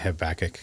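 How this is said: The name is said in an American pronunciation. This is the speaker's own habitual form of the name. "I say Habakkuk because I'm American"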